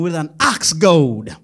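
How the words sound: It is spoken in an American accent.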